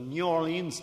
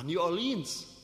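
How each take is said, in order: First: The stress falls on the first word. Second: The stress falls on the second word. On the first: The speaker calls it right. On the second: The speaker calls it wrong.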